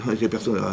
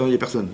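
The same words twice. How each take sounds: First: Softer, with a real laugh through it. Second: Said in the usual way. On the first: Real, not acted. Rabbi repeating the joke to his congregation, laughing softly. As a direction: chuckle as you repeat it.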